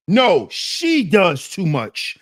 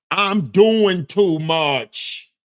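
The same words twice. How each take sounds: First: Slow, with "she" hit hardest; "she" stressed, slow and pointed. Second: Slow, with "doing" drawn out and stressed; "doing" the leaned-on word, slow and ironic. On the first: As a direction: punch "she" to shift the blame. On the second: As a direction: lean on "doing" as if owning the blame. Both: Shown as a demonstration.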